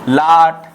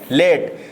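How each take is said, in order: First: The vowel sounds like 'ah' in father. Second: The vowel sounds like 'ay' in day. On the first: The speaker calls it wrong. "लाट हमारा ये गलत हो जाएगा" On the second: The speaker calls it right. "लेट हमारा सही रहेगा"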